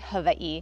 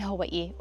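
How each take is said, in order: First: It is said the native Hawaiian way. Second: It is said the everyday English way.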